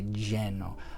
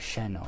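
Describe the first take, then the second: First: The word begins with a j sound. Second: The word begins with an sh sound. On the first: This is how some southern countries say it. "it's like a J sound" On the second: This is another variant some speakers use. "some of them actually will do an sh sound"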